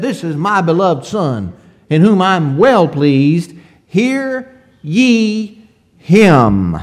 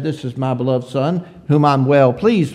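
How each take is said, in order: First: Loud proclamation, slowing hard on hear ye him; voice from heaven. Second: Said in the usual way. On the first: Retold or imitated. Preacher voicing God's voice from heaven at the transfiguration, loud and slow. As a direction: proclaim it from heaven, drawing out the last words. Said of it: "That voice from heaven said". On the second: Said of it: "the first time that voice said".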